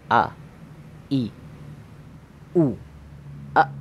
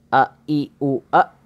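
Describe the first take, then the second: First: Each syllable is said separately with pauses between. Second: The syllables are joined in one breath. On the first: "bacaan pertama itu dengan cara dipisah" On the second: "disambungkan satu nafas"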